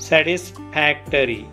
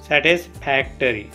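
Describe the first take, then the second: No difference in how they are said.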